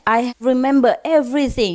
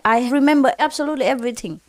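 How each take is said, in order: First: Said in the usual way. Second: Rushed, fast insistent repeat; faster repeat. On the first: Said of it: "the husband said". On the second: Retold or imitated. Husband insists to his wife, fast and pressing. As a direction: hurry the claim out. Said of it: "He talked to his wife".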